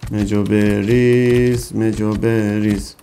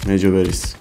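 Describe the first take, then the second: First: مجو بریز stretched very slowly, each syllable held; slow drawn-out repeat. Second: Said in the usual way. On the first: Real, not acted. Gamer drawling the command while feeding the dino slowly. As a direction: drag out بریز lazily.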